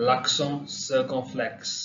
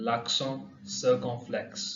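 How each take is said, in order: First: L'accent circonflexe drawn out very slowly; slow French model. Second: L'accent circonflexe repeated very slowly, softer; slow French repeat. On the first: Teacher models the French term, very slow. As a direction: stretch every syllable of L'accent circonflexe. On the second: Teacher repeats the term, slow and soft. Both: Shown as a demonstration. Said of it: "ये ए".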